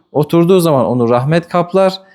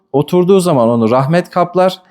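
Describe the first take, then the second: No difference in how they are said.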